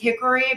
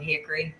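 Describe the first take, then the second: First: Every syllable is said clearly, without a twang. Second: It is said with a twang, syllables clipped. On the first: The speaker calls it wrong. "You can't say all the syllables that are a part of it" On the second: The speaker calls it right. "You got to say it with a twang"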